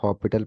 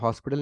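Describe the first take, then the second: First: The s sound is silent in the middle. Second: The s sound is pronounced in the middle. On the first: The speaker calls it right. "Basically इसे हॉस्पिटल पढ़ना चाहिए" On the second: The speaker calls it wrong. "एज silence है तो हॉस्पिटल नहीं पढ़ना चाहिए इसे"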